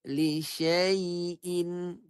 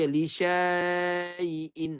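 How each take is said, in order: First: The syllable syai is kept short. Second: The syllable syai is lengthened. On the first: The speaker calls it right. "Tidak berfungsi pada bacaan, jadi dibaca macam mana?" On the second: The speaker calls it wrong. "Ada orang baca li syai'in. Ha, dipanjangkan syai"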